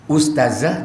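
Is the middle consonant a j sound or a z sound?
z sound. The middle consonant is a z sound. The speaker calls it right. "Padahal yang betul itu adalah ustazah"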